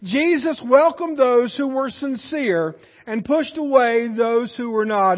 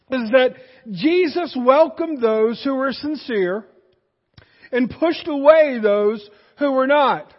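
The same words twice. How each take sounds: First: Weighty repeat with stress on "welcomed" and "away"; repeated for emphasis. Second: Slow, weighty sermon emphasis on each phrase; slow emphatic. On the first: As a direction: say it again, leaning on welcomed. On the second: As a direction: lay it down slowly so it sinks in. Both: Shown as a demonstration. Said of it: "Let me say that again".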